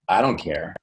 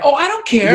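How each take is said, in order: First: The pitch falls and does not stay high. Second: The pitch stays high throughout.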